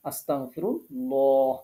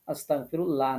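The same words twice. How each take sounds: First: আস্তাগফিরুল্লাহ slowly with a thick rounded ল; correct heavy lam. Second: আস্তাগফিরুল্লাহ with a thin flat লা, the wrong way; wrong thin lam. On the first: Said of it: "এই ল পড়তে হবে". (সঠিক মোটা ল-তে ধীরে) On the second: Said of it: "আস্তাগফিরুল্লাহ না". (ভুল পাতলা লা-তে উচ্চারণ) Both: Shown as a demonstration.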